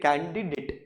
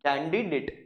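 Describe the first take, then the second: No difference in how they are said.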